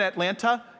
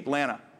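First: The word begins with a clear A vowel. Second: The first vowel is dropped, starting near T. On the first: The person is not a real local. The speaker calls it wrong. "You're not saying it right. You're from somewhere else" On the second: The person is a real local. The speaker calls it right. "It doesn't start with an A. It starts basically with a T"

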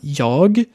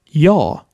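First: The final g is pronounced. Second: The final g is dropped. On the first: "statt Jag"

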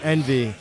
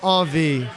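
First: The first syllable sounds like 'en'. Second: The first syllable sounds like 'on'. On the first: The speaker calls it wrong. "they say envy because it's spelled E N V I E" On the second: The speaker calls it right. "but it's pronounced On V"

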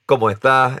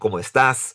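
First: The final s sound is dropped, Panamanian style. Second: The final s sound is clearly pronounced.

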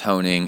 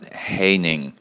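First: The first syllable does not rhyme with rain. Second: The first syllable rhymes with rain. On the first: The speaker calls it wrong. "it's not pronounced Honing" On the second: The speaker calls it right. "it's pronounced Haining, rhymes with raining"

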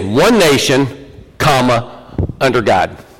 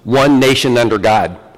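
First: There is a break after nation. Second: It flows without a break after nation. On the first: Nation and under God are two separate things. The speaker calls it wrong. "I think we say this wrong. We say one nation, comma, under God" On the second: The nation was established under God. The speaker calls it right. "You know how it was actually written?"

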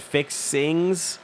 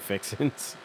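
First: The word ends in 'ing' with a g. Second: The word ends in 'in' without a g. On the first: The speaker calls it wrong. "She said Fixings" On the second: The speaker calls it right. "My mother could never say Fixin's"

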